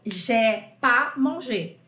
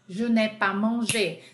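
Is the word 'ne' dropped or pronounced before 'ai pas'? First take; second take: dropped; pronounced. First: The negative particle ne is dropped. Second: The negative particle ne is pronounced. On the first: This is the casual form used in everyday speech. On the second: This is the careful form used in writing.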